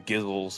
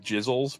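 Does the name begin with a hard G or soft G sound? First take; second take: hard G; soft G. First: The name begins with a hard G sound. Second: The name begins with a soft G sound.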